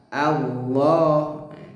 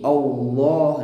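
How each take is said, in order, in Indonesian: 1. Vokal di awal terdengar ringan dan tipis. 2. Vokal di awal terdengar berat dan tebal. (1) "yang betul tetap tipis a a" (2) "ini kurang tepat ya. Uh, salah ya"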